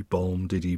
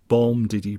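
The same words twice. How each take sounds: First: Softer repeat, "bom" still heavy and "diddy" light but trailing off; fading stress rhythm. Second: "bom" hit hard, then a light quick "diddy"; heavy stress rhythm. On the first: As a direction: let the beat "bom, diddy" die away softly. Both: Shown as a demonstration. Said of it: "rhythm in terms of heavy stress".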